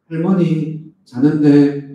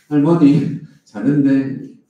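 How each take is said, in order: First: Put-on Gyeongsang accent, loud and slow, 자는데 drawn out; a child answering in thick Gyeongsang dialect; Gyeongsang-accented child on the phone. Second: Put-on Gyeongsang accent, loud and slow, 할머니 stressed; a child repeating it in thick Gyeongsang dialect; Gyeongsang-accented child on the phone. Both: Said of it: "이렇게 이제 경상도 말로".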